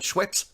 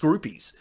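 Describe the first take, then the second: First: The name is said as Schweppes. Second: The name is said as Scroopies. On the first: This is how most people say it. "most people call it Schweppes" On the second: This is how the speaker says it. "it's pretty much pronounced Scroopies"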